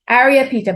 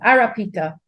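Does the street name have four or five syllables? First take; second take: five; four. First: The name is said with five syllables. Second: The name is said with four syllables. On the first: This is an outsider's pronunciation. The speaker calls it wrong. "All the Trinis will say that I'm not pronouncing it right" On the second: This is how locals say it. The speaker calls it right. "they pronounce it"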